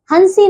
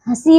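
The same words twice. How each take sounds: First: हंसी said as "hansi"; wrong full n. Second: हंसी with nasalised vowel, no full n; correct nasal vowel. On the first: Teacher showing pupils the error, हंसी with hard n. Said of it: "हंसी नहीं". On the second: Teacher correcting pupils, हंसी with nasal first vowel. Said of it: "हंसी होता है". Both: Shown as a demonstration.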